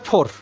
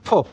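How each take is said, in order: First: The final r sound is pronounced. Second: The final r sound is dropped. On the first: "আমেরিকানরা বলে ফোর" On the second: "ব্রিটিশরা বলে ফো"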